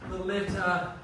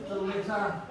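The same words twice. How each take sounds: Both takes have the same delivery.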